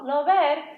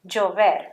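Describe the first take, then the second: First: The first sound is like an English l. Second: The first sound is like an English y. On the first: The speaker calls it wrong. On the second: The speaker calls it right.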